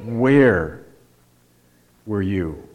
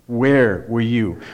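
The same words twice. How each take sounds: First: "were" leaned on, "where" light; soft falling question, "were" carrying the weight; stress on were. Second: "Where" punched, slow and falling; "Where" stressed, question spoken slowly. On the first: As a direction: lean on "were" in "where were you". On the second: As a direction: hit the first word "Where" and slow down. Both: Shown as a demonstration. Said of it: "So we emphasize the, the, the first word".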